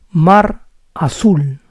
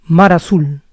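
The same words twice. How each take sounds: First: Mar azul said slowly, words apart. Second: Faster. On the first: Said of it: "If I say it slowly". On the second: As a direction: run mar azul together quickly. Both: Shown as a demonstration.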